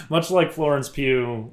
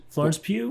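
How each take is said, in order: First: Florence Pugh said firmly, Pugh like pew; settled pronunciation. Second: Florence Pugh with a rising, unsure lilt on Pugh; unsure pronunciation. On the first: Going on after the pew joke, saying Pugh with settled confidence. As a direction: land on Florence Pugh, now sure of it. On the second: Checking with his co-host how to say the name, unsure. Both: Real, not acted. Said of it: "Is that how you pronounce it?".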